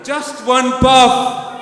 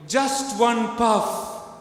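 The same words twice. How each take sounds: First: Very loud, high drawn-out shout; louder, meaner provocation. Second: High, slow, drawn-out call; called-out provocation. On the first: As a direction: shout the taunt with full menace. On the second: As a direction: call it out teasingly, not yet at full force. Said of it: "Louder, meaner". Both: Shown as a demonstration.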